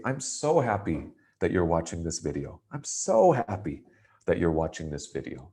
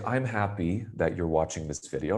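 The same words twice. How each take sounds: First: So stretched and lifted for emphasis; so said with extra power, the rest plain; stress on so. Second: Said in the usual way. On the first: Shown as a demonstration. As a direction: lean hard on the word so. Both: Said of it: "I'm using my so to give it a little more power".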